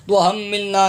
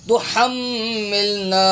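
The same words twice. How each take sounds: First: تحملنا spoken with a weak h, unchanted; wrong reading. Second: تحملنا slowly chanted with strong throat h; correct haa. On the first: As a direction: mimic the mistake in تحملنا, plain light h. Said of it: "الف خالی نہیں پڑھنا". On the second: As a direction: recite تحملنا with held m and long final a. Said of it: "ہا پڑھنا". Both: Shown as a demonstration.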